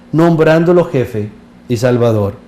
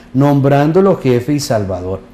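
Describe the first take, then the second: The two takes are said the same way.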